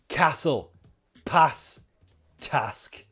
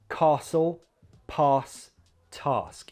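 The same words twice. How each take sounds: First: The words are said in a northern English accent. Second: The words are said in a southern British accent. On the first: "a character from the north of England with northern pronunciation" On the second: "Southern British accents"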